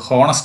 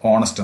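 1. ഈ വാക്ക് 'h' ശബ്ദത്തിലാണ് തുടങ്ങുന്നത്. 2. ഈ വാക്ക് സ്വരാക്ഷര ശബ്ദത്തിലാണ് തുടങ്ങുന്നത്. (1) "നമ്മൾ ഹോണസ്റ്റ് എന്നല്ല പറയുന്നത്" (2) "ഓണസ്റ്റ് എന്ന്, അതായത് എച്ച് ഇവിടെ സൈലന്റ് ആണ്"

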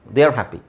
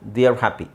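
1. 'They are' ಅನ್ನು ಒಂದು ಚಿಕ್ಕ ಉಚ್ಚಾರಾಂಶವಾಗಿ ಸಂಕುಚಿತಗೊಳಿಸಿ ಹೇಳಲಾಗುತ್ತದೆ. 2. 'They are' ಅನ್ನು ಒಂದು ಚಿಕ್ಕ ಉಚ್ಚಾರಾಂಶವಾಗಿ ಸಂಕುಚಿತಗೊಳಿಸಿ ಹೇಳಲಾಗುತ್ತದೆ.

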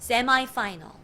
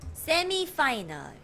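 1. semi는 'eye' 소리로 끝나요. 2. semi는 'ee' 소리로 끝나요. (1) "많은 미국 국가에서는 세마이 파이널이라고 부릅니다" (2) "4강은 많은 분들이 이거를 이렇게 부르세요"

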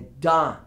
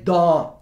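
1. A vogal é aberta e próxima do a. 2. A vogal é um o arredondado, parecido com o português. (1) "é dó. Tem um Azinho" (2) "Não é dó"

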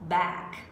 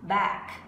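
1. Nguyên âm này là âm A-E mở. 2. Nguyên âm này là âm A-E mở.

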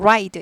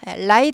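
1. 둥근 영어 r 소리로 시작합니다. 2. 평평한 한국식 r 소리로 시작합니다. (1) "R 발음입니다" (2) "라이드 아니고"

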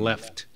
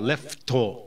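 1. 語末はきれいにtの音で終わっています。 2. 語末はtの後に母音が付いています。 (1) "t で終わるのが超外人っぽい" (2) "よく日本人はleft とか言うじゃないですか"

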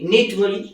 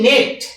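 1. স্বরধ্বনিটি 'ih' এর মতো শোনায়। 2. স্বরধ্বনিটি 'eh' এর মতো শোনায়। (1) "একটা নিট বলছি" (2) "একটা নেট বলছি"

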